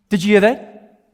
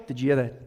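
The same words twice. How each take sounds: First: Louder, raised question; insistent question. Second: Low, soft question; hushed alert. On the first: Birder asks companion who missed the bird, insistent question. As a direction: press your companion for an answer. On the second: Birder notices a call while sitting nearby, hushed alert. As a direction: ask quietly so the bird isn't disturbed. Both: Acted.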